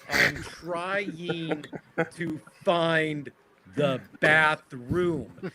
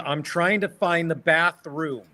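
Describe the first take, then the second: First: The phrase is spoken slowly and deliberately. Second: The phrase is spoken at a normal pace.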